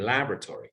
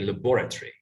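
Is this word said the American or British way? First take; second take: American; British. First: It is said in an American pronunciation. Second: It is said in a British pronunciation. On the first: "but Americans say" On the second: "British people say"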